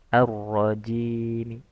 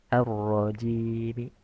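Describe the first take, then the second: No difference in how they are said.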